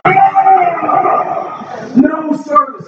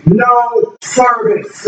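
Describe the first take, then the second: First: High frustrated outburst; exasperated cry. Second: Said in the usual way. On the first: Retold or imitated. Driver losing it at his dead phone, high exasperated cry. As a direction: throw up your hands at the phone.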